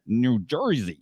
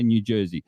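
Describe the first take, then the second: First: It is said in an exaggerated New Jersey accent. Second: It is said plainly, in his own voice.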